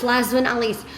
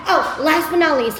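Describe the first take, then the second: First: Said in the usual way. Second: Higher, louder "last but not least" with a lift on "not"; "last but not least" sung out as a big reveal; bright announcing. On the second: Real, not acted. Wrapping up the video for viewers, announcing brightly.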